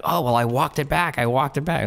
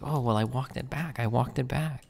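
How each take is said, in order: First: Mocking whiny voice. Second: Soft mock whine, pitched up; mocking quiet voice. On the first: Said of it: "to hear somebody like". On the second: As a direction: mimic him muttering the excuse. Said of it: "It's like".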